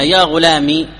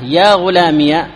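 First: يا غلامي ending in a plain long i; silent ya. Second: يا غلامي said slowly as ghulamiya, the ya with a fatha; slow, open ya on غلامي. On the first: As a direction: say غلامي with the ya unvowelled. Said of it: "ياء المتكلم ساكنة". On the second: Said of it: "الياء مفتوحة". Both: Shown as a demonstration.

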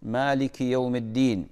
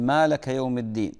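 First: مالك said malik, slow and careful; correct form. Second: مالك said lmalaka, vowels wrong; common mistake. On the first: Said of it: "مالكي من الملك". (مالك بالنطق الصحيح) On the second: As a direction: say مالك as malaka. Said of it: "أسمع يقول". (مالكَ بلحن جلي) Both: Shown as a demonstration.

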